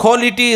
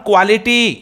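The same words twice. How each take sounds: First: Quality as "kholity", no W glide; airy KH and round O in quality; right pronunciation. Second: Quality with a clear KW, "kwaa-li-tee"; wrong pronunciation. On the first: Teacher showing pupils the correct form, quality as "kholity". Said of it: "quality is the right pronunciation". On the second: Teacher showing pupils what to avoid, quality as "kwality". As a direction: say quality as "kwality", W glide after the K. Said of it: "right pronunciation is not quality". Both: Shown as a demonstration.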